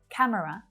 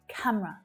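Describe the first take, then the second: First: The word is said with three syllables. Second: The word is said with two syllables. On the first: The speaker calls it wrong. "Many of my students will say camera" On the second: The speaker calls it right. "Two syllables only. camera is definitely much more natural"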